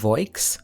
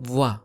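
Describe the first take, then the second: First: The vowel sounds like oi. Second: The vowel sounds like wa. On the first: The speaker calls it wrong. "So this is not voix" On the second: The speaker calls it right. "this is voix"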